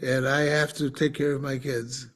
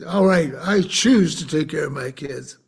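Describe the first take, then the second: First: "have" leaned on as a duty, dropping softer toward the end; stress on have. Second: "choose" hit firmly, an irritated decision; stress on choose. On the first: Father telling the nurse he must care for kids, "have" stressed. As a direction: weigh down "have" like an obligation. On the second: Angry father telling the nurse he chooses, "choose" stressed. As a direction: land hard on "choose", claiming the choice. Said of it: "I got really angry". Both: Retold or imitated.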